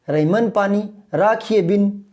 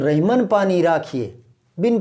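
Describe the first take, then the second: First: 'Bin' is run together with 'raakhiye' without a pause. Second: A slight pause comes between 'raakhiye' and 'bin'. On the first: The speaker calls it wrong. "अब गड़बड़ हो रही है ना" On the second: The speaker calls it right. "तब वो बीच में हल्का सा गैप आता है"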